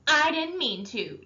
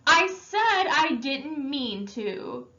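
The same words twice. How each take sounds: First: Shouting. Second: Slow, higher, loud frustrated protest; tearful anger. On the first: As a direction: throw the words back at him. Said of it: "Derry shouted". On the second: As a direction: force it out through angry tears. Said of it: "hot tears of anger and frustration". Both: Acted.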